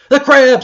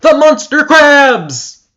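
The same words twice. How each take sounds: First: High, loud terrified shriek. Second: High, loud, slow wailing scream; drawn-out shriek. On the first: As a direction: shriek it in panic. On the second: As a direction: stretch the scream out in horror. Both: Acted. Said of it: "she shrieked".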